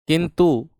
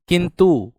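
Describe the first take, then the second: No difference in how they are said.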